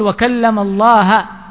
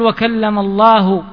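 First: The word Allah ends with an a vowel. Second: The word Allah ends with a u vowel. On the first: God is the one spoken to. The speaker calls it wrong. "وإنما قل وكلم الله موسى تكليما" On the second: God is the one who spoke. The speaker calls it right. "لا تقول وكلم الله"

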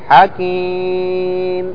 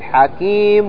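First: The word ends without an n sound. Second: The word ends with an n sound. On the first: The speaker stops on this word. "ما في نون، سكون" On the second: The word runs on into the next word. "واضح نطقنا نون"

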